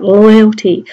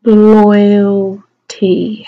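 First: Said in the usual way. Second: "loyalty" drawn out very slowly, loud; "loyalty" with a long held LOY; stretched sounding out. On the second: Shown as a demonstration. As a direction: feel through "loyalty" sound by sound. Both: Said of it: "How are we gonna do that?".

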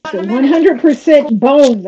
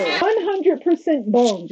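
First: "So one hundred percent bones" read out loud and punchy; emphatic mock read. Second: "One hundred percent bones" slowly, word by word; slow deadpan repeat. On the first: Mocking his shirt to the viewers, loud emphatic read. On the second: Repeating the shirt slogan for the viewers, slow deadpan. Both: Shown as a demonstration. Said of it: "doesn't say one hundred percent muscle".

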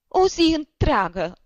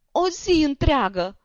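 First: "o zi întreagă" wailed higher and louder, slowly, weight on "o"; sobbing lament. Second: "o zi întreagă" wailed higher and louder, slowly, weight on "zi"; sobbing lament. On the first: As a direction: drag out "o zi întreagă" through sobs, leaning on "o". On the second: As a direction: repeat "o zi întreagă" through tears, now leaning on "zi". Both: A narrator's reading. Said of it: "izbucni din pieptul lui un hohot de plâns".

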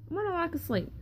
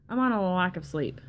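First: Lack of sleep said higher in pitch; higher repeat. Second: Said in the usual way. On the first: Real, not acted. Telling viewers again she's just sleepless, in a higher voice. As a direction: say it again up high, playful. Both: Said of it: "I'm not drunk, guys".

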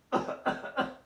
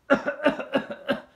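First: Cough into sleeve. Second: Loud, open cough into the air; demo cough. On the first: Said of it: "O toser sobre su manga". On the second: Teacher demonstrating the wrong way to cough, loud open cough. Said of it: "Así como lo estoy haciendo". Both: Shown as a demonstration.

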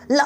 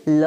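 First: ल cut off abruptly; clipped ल. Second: ल pulled long like rubber; drawn-out ल. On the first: Teacher contrasting the half letter, ल clipped short. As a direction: say ल as one short jerk. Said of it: "झटके से बोलना है". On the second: Teacher showing how to pull it like rubber, ल stretched long. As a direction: hold the vowel of ल. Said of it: "अब खींचिए पकड़ के". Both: Shown as a demonstration.

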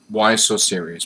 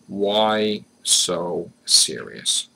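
First: Said in the usual way. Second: Very slow "Why so serious", each word stretched; loud, heavily slowed "Why so serious"; drawn-out repeat. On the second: Shown as a demonstration. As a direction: draw out every word, pausing between them. Repeats question drawn out for effect.

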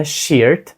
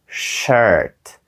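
First: "shirt" with a long ee, like "sheert"; mispronounced shirt. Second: "shirt" with a drawn-out central er vowel; correct shirt vowel. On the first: Teacher warning learners off a wrong vowel, "shirt" said as "sheert". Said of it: "Це не shirt, це не short, це shirt". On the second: Teacher modelling tricky word for learners, "shirt" with a long er vowel. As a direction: say "shirt" slowly with an er sound, neither ee nor aw. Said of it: "Досить складна вимова". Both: Shown as a demonstration.

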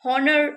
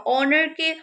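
First: হনার with the h wrongly sounded; mispronounced honour as হনার, h pronounced; wrong pronunciation. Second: অনারকে said slowly with a silent h; careful, slow অনারকে without the h; correct pronunciation. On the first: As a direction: voice a clear h at the start of হনার. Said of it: "এরকম উচ্চারণ করব না". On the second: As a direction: start অনারকে on the open vowel, no h. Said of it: "হনার এরকম উচ্চারণ করব না". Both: Shown as a demonstration.

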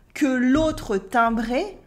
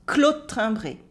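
First: "que l'autre timbré" slowly, with que as its own syllable; full vowels. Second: "que l'autre timbré" squeezed to klot-timbré; cut vowels. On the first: French teacher showing the full form before it gets cut, "que l'autre timbré" fully sounded. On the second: French teacher copying the waitress, vowels cut in "qu'l'aut' timbré". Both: Shown as a demonstration. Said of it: "she really cuts some vowels".

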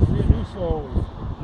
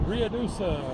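First: Ruidoso said slowly and carefully, syllable by syllable; careful retry of the name. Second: Ruidoso said quickly and unsure, ending ree-uh-doo-suh; a fumbled first try at Ruidoso, high then falling; stumbling on the name. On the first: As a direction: Ruidoso drawn out slowly with a long fall. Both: Real, not acted. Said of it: "I can't even say the name".

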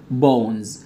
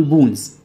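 First: Said in the usual way. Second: "بونز" with a long oo, as "boons"; mispronounced bones. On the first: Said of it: "وهتقول بونز". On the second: Shown as a demonstration. Teacher mimicking a student's mistake, "بونز" said as "boons". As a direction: say "بونز" wrongly with an oo vowel. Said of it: "وهتقول".

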